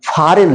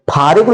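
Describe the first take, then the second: First: फॉरेन said correctly without any g; silent g. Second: फॉरेन misread as "phaarign"; wrong pronunciation. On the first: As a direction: say फॉरेन, with just n at the end. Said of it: "फॉरेन लिखना है". (फॉरेन, ग silent रखकर) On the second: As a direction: say फॉरेन with the silent g wrongly voiced. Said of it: "फॉरेन नहीं लिखना है". (फॉरेन को ग के साथ "फारिग्न" बोलना) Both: Shown as a demonstration.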